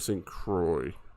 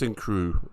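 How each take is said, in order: First: The final x sound is pronounced. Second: The word ends in an oo sound, no x. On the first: The speaker calls it wrong. "It's got an X in it. I'm pronouncing it" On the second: The speaker calls it right. "if you pronounce it correctly"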